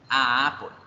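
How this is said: There is a catch between 'a' and 'apple'. The article is heard as separate. "va a existir ese atascamiento en el fluido del aire"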